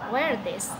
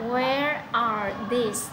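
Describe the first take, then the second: First: The words run together, with 'are' nearly gone. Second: Each word is said separately and fully. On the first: "thì sẽ là" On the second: "Khi mà chúng ta đọc từ từ thì nó rất là mất sức"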